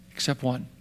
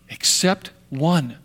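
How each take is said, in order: First: Dropped to a near whisper; soft, low dramatic reveal; dramatic hush. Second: Slow soft repeat. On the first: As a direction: pull the room in quietly. Preacher drops voice dramatically. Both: Real, not acted.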